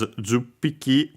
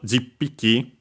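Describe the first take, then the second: First: The first vowel is a u sound. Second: The first vowel is an i sound. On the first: This is the common modern form. "mostly pronounced as juppiki with uh, the u" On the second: This is the older, more formal form. "more formal uh, and original uh, form was jippiki"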